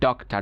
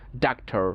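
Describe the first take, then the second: First: It is said in a British accent. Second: It is said in an American accent.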